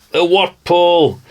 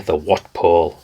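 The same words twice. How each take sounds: First: Drawn-out, higher, delighted cry of the name; delighted exclaim. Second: Said in the usual way. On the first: Real, not acted. Man spotting an old antenna in a catalogue, delighted exclaim.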